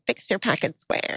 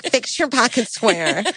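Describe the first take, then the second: First: Soft, half-whispered mock command; mock hushed order. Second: Slow, drawn-out mock instruction; mock bossy aside. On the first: Bride ridiculing the order groom imagined, mock hushed order. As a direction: quote it quickly under the breath. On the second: Bride supposedly correcting groom mid-ceremony, mock bossy aside. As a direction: imitate ordering the groom, stretched out.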